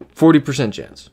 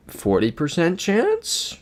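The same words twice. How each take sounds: First: "Forty percent chance" starting high on "Forty", then falling; higher punch on "Forty", falling finish; settled statement. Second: "Forty percent chance" slow, climbing high to a questioning end; drawn-out, rising guess on "Forty percent chance"; doubtful question. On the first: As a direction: land "chance" downward as a decided answer. Restates odds as an answer. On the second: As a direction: float "chance" upward as an unsure offer. Guesses odds, then restates them. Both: Real, not acted.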